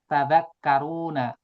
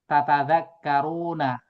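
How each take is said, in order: First: The opening syllable ta is said once. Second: The opening syllable ta is said twice. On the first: "Kadang dibacanya tadzakkaruna" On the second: "di dalam Al-Quran ada kata tatadzakkaruna"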